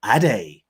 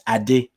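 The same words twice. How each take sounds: First: "Ade" said the easy Western way, ending like "day"; westernised name. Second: "Ade" with a short pure final vowel, "ah-deh"; correct native pronunciation. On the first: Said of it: "in a way that makes it easier". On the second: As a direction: say "Ade" as "ah-DEH", no glide at the end. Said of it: "the correct pronunciation is". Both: Shown as a demonstration.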